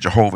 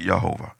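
First: The name begins with a J sound. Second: The name begins with a Y sound. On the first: The speaker calls it wrong. "We say Jehovah" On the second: The speaker calls it right. "it's actually Yehovah"

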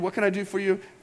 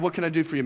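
First: It is said in a more solemn, reverent tone. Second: It is said in a casual, chummy tone. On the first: Talking to God with respect. The speaker calls it right. "We say it a little more reverent" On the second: Talking to God like a buddy. The speaker calls it wrong. "We don't say it like that"

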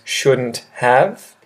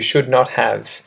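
First: Not is contracted onto should, have stays separate. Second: Every word is said separately and in full. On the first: "its contracted forms"

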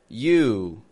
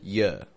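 First: The word has a full oo vowel. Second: The vowel is reduced to a schwa. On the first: "It sounds like you" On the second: "changes to y"

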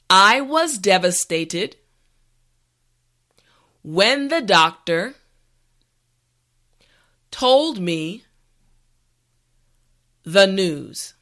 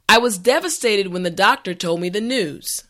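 First: The sentence is said slowly and carefully. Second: The sentence is said at a natural speed. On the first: "this time repeat after me" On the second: "this time we will go at a more natural pace"

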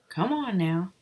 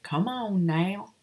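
First: It has a mild Southern accent. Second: It has an exaggerated, mocking Southern accent.

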